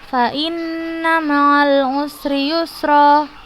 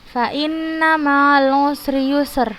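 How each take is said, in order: First: The final vowel is held for two beats. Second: The final word ends without any vowel. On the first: The speaker calls it right. "dua harokat" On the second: The speaker calls it wrong. "bukan seperti itu"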